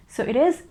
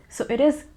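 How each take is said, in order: Both takes have the same delivery.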